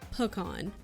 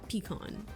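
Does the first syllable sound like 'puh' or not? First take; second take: puh; not puh. First: The first syllable is a reduced 'puh'. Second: The first syllable is not a reduced 'puh'. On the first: "Puh. Like pariah" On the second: "Not pecan"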